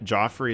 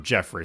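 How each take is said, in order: First: The first vowel sounds like 'aw'. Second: The first vowel sounds like 'eh'. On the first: The speaker calls it wrong. "Or Jeffrey, sorry" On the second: The speaker calls it right. "I'll pronounce this dude's name right"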